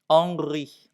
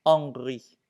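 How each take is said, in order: No difference in how they are said.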